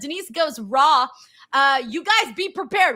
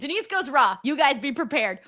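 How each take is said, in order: First: It is read slowly with a pause partway through. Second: It is read quickly straight through without pausing.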